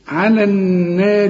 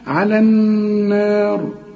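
First: The r sound is light and thin. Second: The r sound is heavy and full. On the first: The word runs on into the next one. "لكن عند الوصل مكسورة" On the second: The reciter stops on this word. "وفخمنا ليه على دي، قلت على النار علشان اذا وقفت هنفخم الراء"

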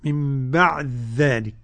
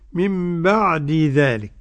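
First: The d merges into a doubled dh sound. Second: The d and dh sounds are said separately.

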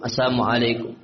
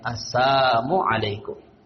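First: The phrase is said quickly, sounds blurred together. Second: The phrase is said slowly, each sound clear. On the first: The hidden insult is not clearly heard. "mereka baca cepat" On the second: The hidden insult becomes clearly heard. "kalau dilambat"

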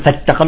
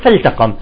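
First: The l is dropped and the t doubled. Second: The l is clearly pronounced before the t. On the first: The speaker calls it wrong. "ما يقول فالتقم" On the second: The speaker calls it right. "يقول فالتقم"

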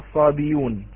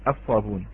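First: A y sound comes before the ending. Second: No consonant comes before the ending. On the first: The speaker calls it wrong. "لا لا تقرأ بالياء" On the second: The speaker calls it right. "أي تحذف هذه الهمزة"

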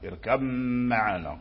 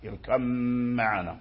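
First: The b merges into a long, nasal m. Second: The b merges into a long, nasal m.

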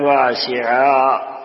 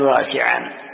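First: The word ends in a long a vowel. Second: The word ends with an added n sound. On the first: The speaker calls it right. "تقف عليه بالألف" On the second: The speaker calls it wrong. "ولا تقل"

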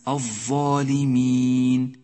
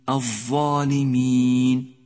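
The two takes are said the same way.

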